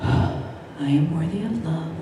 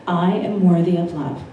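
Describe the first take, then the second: First: It is said with a sigh, reluctantly. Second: It is said earnestly, with conviction.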